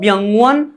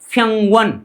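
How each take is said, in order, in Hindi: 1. शब्द की शुरुआत एक सघोष b ध्वनि से होती है। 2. शब्द की शुरुआत एक अघोष p ध्वनि से होती है। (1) "नो व्यंगवन" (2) "ब का उच्चारण क्या किया जाता है, फ किया जाता है"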